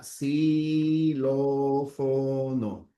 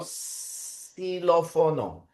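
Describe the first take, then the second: First: Xilófono very slowly, s at the start, stress on lo; stretched Xilófono; slow dictation. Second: Xilófono slowly with an s at the start; drawn-out Xilófono; slow dictation. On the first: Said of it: "Así sería". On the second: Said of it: "pronunciamos una S". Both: Shown as a demonstration.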